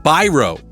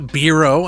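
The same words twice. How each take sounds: First: The name is said with a plain English sound. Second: The name is said with an Italian-style sound. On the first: The speaker calls it right. "That's how you say it" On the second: The speaker calls it wrong. "It's not Biro. I'm trying to get all Italian"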